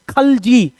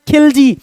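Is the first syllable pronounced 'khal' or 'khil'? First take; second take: khal; khil. First: The first syllable has an 'a' vowel: khal. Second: The first syllable has an 'i' vowel: khil. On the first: This is the form found in proper Turkish texts. "यहां lives क्या लिखा है? खलजी" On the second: This is how it is pronounced in India. "India में इसको pronounce किया जाता है खिलजी"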